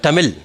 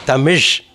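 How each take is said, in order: First: TAMIL ending in an ordinary English L; Tamil with plain L. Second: TAMISH ending in a buzzing curled zh; Tamil with zh. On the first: Teacher showing students the mistaken form, TAMIL with plain L. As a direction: say TAMIL with tongue-tip L, no zh. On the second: Teacher correcting the language's name, TAMISH with final zh. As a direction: curl the tongue back to end TAMISH. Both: Shown as a demonstration. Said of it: "it's not Tamil".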